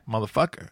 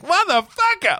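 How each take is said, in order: First: The word is said calmly and restrained. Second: The word is shouted with big energy.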